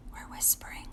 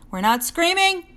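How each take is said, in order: First: Very soft whisper; teacher showing the right, quiet way. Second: Higher, louder whispered mock scream; teacher acting out the wrong, loud way. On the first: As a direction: drop to a hush. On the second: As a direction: burst out as a playful fake scream. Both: Shown as a demonstration.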